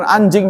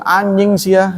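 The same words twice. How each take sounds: First: Said in the usual way. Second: "anjing sia" pitched up, said as "aanying sia"; NY instead of J. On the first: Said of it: "bukan anjing dia ngomong". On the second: Shown as a demonstration. Teacher demonstrating Bandung slang, "anjing" pronounced "anying". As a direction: turn the J of "anjing" into NY. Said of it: "jadi N Y".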